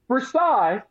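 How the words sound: It is said the French way, ending 'sigh'.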